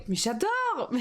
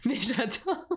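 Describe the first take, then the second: First: Real thrill over the stickers; gushing. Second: Slow "mais j'adore" through a laugh; real amused giggle while gushing. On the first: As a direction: squeal "Mais j'adore" with delight. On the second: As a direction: let "mais j'adore" melt into laughter, drawn out. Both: Real, not acted. Gushing over kitsch Christmas stickers.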